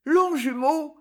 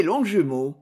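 First: High, hesitant echo of "Longjumeau"; stammered echo. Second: Said in the usual way. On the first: A narrator's reading. Girl blushing at the town's name, stammering high. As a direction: repeat "Longjumeau" high, wavering upward. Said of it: "balbutie la jeune fille".

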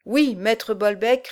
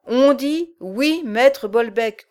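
First: Slow obedient recitation; dutiful recitation. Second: Slow, loud growling giant; dim slow booming giant. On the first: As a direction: recite it back slowly and dutifully. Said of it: "récitèrent les deux amis". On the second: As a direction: growl each word out slowly. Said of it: "grogna le géant". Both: Acted.

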